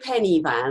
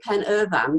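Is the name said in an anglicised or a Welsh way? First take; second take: anglicised; Welsh. First: The name is said in an anglicised way. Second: The name is said in the Welsh way. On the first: This is how the other person says it. "you say penny van" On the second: This is the local Welsh way of saying it. "that's the Welsh way of saying it"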